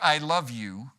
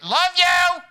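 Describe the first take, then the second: First: It is said calmly at normal volume. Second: It is shouted loudly and harshly. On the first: "it's not what we say" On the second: "said the same words, different way"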